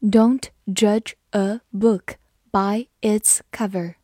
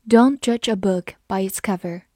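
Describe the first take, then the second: First: Slow, careful reading. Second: Said in the usual way. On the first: Shown as a demonstration. Teacher reading the proverb slowly for students. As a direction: say each word slowly and clearly. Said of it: "好，我们慢读一遍。". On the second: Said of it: "慢读一遍".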